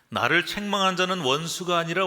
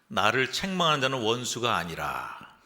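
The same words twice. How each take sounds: First: It runs on without a pause after 아니라. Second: It stops with a pause after 아니라. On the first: The enemy is called both not an enemy and an enemy. The speaker calls it wrong. "이렇게 읽으시면 안 되고요" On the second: The speaker denies that the reproacher is an enemy. The speaker calls it right. "이렇게 읽어야 돼요"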